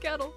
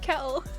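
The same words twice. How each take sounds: First: It is said in an American accent. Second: It is said in a British accent. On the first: "instead of kettle" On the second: "I kept saying kettle"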